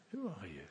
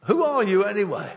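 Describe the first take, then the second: First: Low, hushed imitation of God's question; quiet, searching question. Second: Loud, high-pitched confrontation; challenging demand. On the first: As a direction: drop pitch and volume right down. God speaking personally to him. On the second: Acted. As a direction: demand it forcefully, voice raised. Sailors demanding Jonah explain himself.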